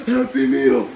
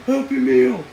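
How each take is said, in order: Both takes have the same delivery.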